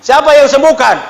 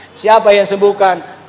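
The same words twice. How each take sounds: First: Rousing call to crowd. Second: Slow solemn question. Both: Acted. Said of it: "Tuhan Yesus".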